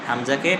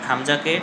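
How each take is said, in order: The two takes are said the same way.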